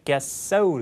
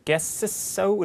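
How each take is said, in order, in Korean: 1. 앞의 s 소리는 안 나요. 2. 두 s 소리 모두 따로 발음해요. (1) "똑같은 자음이 연속됐을 때 앞에 자음은 소리 나지 않는다" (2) "이렇게 하지 않고"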